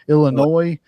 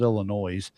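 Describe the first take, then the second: First: The final S sound is silent. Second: The final S sound is pronounced. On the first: The speaker calls it right. "You don't pronounce the S" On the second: The speaker calls it wrong. "I know I said Illinois"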